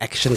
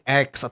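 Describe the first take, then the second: First: It is said like the word action. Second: It is said as the single letter X. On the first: The speaker calls it right. "sebetulnya tuh namanya Action Club" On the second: The speaker calls it wrong. "banyak orang yang salah sebut"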